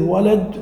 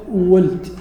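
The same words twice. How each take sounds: First: Said in the usual way. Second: وولد as "w-wuld", second vowel dropped; dialect variant. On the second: Shown as a demonstration. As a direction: say وولد in one closed syllable, "wuld". («وولد» بضم الواو وسكون اللام) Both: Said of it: "لأن لهجة".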